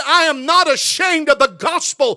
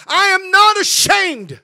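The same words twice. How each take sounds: First: NOT stressed in "I am not ashamed", said at a raised preaching pitch; "not" leaned on, fall at the end; quoting the verse. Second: "not" hit hard, higher and louder, words drawn out slowly; preacher pounding the word "not"; slow emphatic repeat. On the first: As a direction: read the verse with a lift on "not". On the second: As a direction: hammer out "I am not ashamed", slow and loud. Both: Shown as a demonstration.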